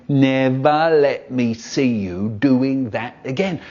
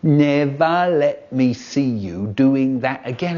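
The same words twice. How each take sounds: First: Slow, wagging-finger dad impression; mock stern dad. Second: Slow, stern imitation of Dad; slow mock-stern dad warning; brother mimicking Dad. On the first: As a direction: drag it out like a telling-off father. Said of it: "just like my dad". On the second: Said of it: "a funny voice going".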